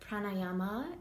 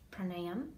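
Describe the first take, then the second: First: The vowels are long and open, ending in a vowel. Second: The vowels are short, and the final vowel is dropped. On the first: The speaker calls it wrong. "in English we tend to open and elongate the vowels" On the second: The speaker calls it right. "the sounds are a little bit more vibrational and shorter"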